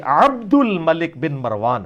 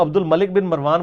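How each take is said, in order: First: "عبد" slow, with a long throaty ain at the start; Arabic ain. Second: "عبد" with a plain vowel, no throat consonant, run quickly into "الملک"; everyday Urdu pronunciation. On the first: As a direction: squeeze the throat on "عبد" and draw it out. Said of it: "آئین تو آپ نے بھی نہیں بولی". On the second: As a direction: say "عبد" the easy Urdu way, as "abdul". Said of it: "یہ بھی غلط ہے". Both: Shown as a demonstration.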